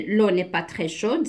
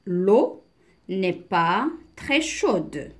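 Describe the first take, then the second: First: Said in the usual way. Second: Slow, spaced-out teacher's reading; deliberate reading with pauses; slow model reading. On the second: Shown as a demonstration. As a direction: read phrase by phrase for beginners. Slow reading, then explained.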